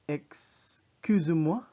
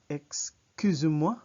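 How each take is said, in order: The two takes are said the same way.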